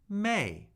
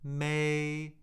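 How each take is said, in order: First: The pitch falls sharply from high. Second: The pitch stays high and level. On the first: "the fourth tone" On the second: "the first tone"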